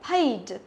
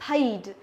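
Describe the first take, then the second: No difference in how they are said.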